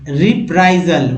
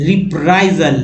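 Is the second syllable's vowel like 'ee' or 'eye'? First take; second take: eye; eye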